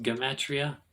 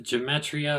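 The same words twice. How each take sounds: First: "gematria" with a hard g, as in get; hard-g pronunciation. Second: "gematria" with a soft g, as in gem; soft-g pronunciation. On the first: Teacher giving the pronunciation he has heard, hard-g pronunciation. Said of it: "I've heard it pronounced". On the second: Teacher naming a Kabbalah term, soft-g pronunciation. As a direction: start "gematria" with a j sound. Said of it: "what's called". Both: Shown as a demonstration.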